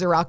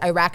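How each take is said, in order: First: The last syllable does not rhyme with 'back'. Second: The last syllable rhymes with 'back'. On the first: The speaker calls it right. "the correct pronunciation is Iraq" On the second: The speaker calls it wrong. "it rhymes with back"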